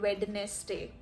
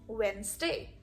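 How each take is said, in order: First: The middle D sound is pronounced. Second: The middle D sound is silent. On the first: The speaker calls it wrong. "we can never call it Wednesday. Just unacceptable" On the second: The speaker calls it right. "The D is silent and it becomes Wednesday"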